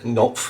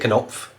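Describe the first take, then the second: First: The initial K is silent. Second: The initial K is clearly pronounced. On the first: The speaker calls it wrong. "than Knopf and to try and make things sound silent" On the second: The speaker calls it right. "it's actually easier to say Knopf"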